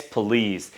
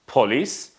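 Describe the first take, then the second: First: Police with a schwa, puh-LEES; right police. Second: Police with an O sound, poh-LEES; wrong police. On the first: Teacher giving the correct police to the class. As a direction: say police with a weak schwa first syllable. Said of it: "we don't have O sound, we have schwa sound". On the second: Teacher showing the wrong way to say police. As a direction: say police with a full O in the first syllable. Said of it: "it's not police". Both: Shown as a demonstration.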